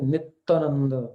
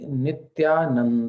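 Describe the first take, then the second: First: It is said with a Bengali pronunciation. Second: It is said with a standard Hindi pronunciation.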